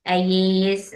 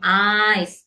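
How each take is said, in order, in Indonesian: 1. Kata ini diucapkan dengan dua suku kata. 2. Kata ini diucapkan dengan satu suku kata. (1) "mungkin sebagian ada yang bilang aye, ayis" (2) "pasti akan saya bilang eyes"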